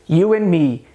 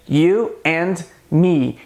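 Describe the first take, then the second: First: The D sound in the middle word is dropped. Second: The D sound in the middle word is pronounced. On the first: "no dia a dia é muito mais comum" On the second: "muito costume de pronunciar a letra D"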